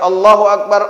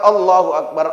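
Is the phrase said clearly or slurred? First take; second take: clearly; clearly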